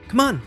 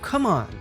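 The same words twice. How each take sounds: First: It is said with an impatient, hurrying tone. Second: It is said with a disbelieving tone. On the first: The speaker wants someone to hurry. "Hurry someone along" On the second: The speaker does not believe something. "It can also express disbelief"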